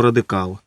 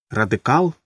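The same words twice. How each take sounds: First: РАДИКАЛ stated low with a falling end; confirming. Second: РАДИКАЛ asked with a rising end; questioning. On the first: Husband answers wife about the author, confirming РАДИКАЛ with a falling tune. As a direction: drop РАДИКАЛ as a settled answer. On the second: Wife asks husband about a burned author, questioning РАДИКАЛ with a rise. Asks if the writer was radical. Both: Acted.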